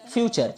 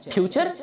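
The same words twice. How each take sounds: First: फ्यूचर opening on a true f; correct f sound. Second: फ्यूचर with aspirated p, as "phyoochar"; wrong pronunciation. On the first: Teacher modelling the word for bhavishya, correct f sound. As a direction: say फ्यूचर with air through open lips. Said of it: "होठों से हवा इसमें बाहर जाएगी". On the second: Teacher showing what not to say for bhavishya, wrong pronunciation. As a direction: pop the lips to start फ्यूचर. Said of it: "फ्यूचर नहीं कहते हैं". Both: Shown as a demonstration.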